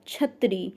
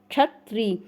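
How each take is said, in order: First: It begins with an aspirated 'chh' sound. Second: It begins with a 'ksh' consonant cluster. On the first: The speaker calls it wrong. "ऐसे normally आप छत्री बोल देते हैं तो आप तालु से बोलते हैं" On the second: The speaker calls it right. "जब आप कंठ और मूर्धन्य मिला के बोलते हैं तो इसको क्षत्रिय बोलते हैं"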